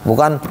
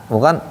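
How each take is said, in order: The two takes are said the same way.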